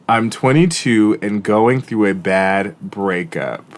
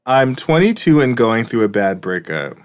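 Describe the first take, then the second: First: The sentence is read very slowly. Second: The sentence is read at a normal pace.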